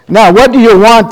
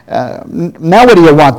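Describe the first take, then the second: First: Loud, high, irritated demand; angrily. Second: Angrily. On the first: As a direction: bark the question like an annoyed innkeeper. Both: Acted. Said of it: "the woman asked angrily".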